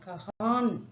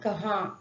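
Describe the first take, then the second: First: The final n is fully and firmly pronounced. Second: The final n is silent, only lightly nasalized. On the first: The speaker calls it wrong. "கஹான் அப்படின்னு அழுத்தி சொல்லாம" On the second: The speaker calls it right. "Silent pronunciation"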